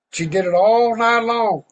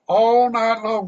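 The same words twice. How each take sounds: First: All hit higher and louder, stretched; stress on all. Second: All night long, drawn out slow and raised; slow repeat. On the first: Preacher stressing all while telling the story. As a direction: lean hard on the word all. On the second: Preacher dwelling slowly on All night long. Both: A narrator's reading.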